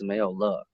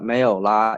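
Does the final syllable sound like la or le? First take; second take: le; la. First: The final syllable ends in a short uh vowel. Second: The final syllable ends in an open ah vowel. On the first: The speaker calls it right. "it's mayo le" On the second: The speaker calls it wrong. "it's not la"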